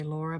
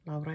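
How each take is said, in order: First: The name is said with an English pronunciation. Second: The name is said with a Finnish pronunciation. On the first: "here I say Laura because I mean I live in Australia" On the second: "Laura is the Finnish pronunciation of that name"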